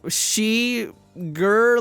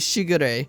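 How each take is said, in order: First: It sounds like sugar starting with she. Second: It does not sound like sugar. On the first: The speaker calls it wrong. "like, sugar, but with a she" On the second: The speaker calls it right. "I think it's actually pronounced sh Shigure"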